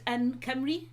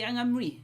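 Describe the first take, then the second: First: The second word starts with a hard k sound. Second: The second word starts with an ng sound.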